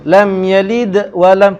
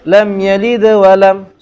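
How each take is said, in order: First: The d sound has a strong, separate bounce. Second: The d sound has a slight bounce, flowing on. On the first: "tu kubra"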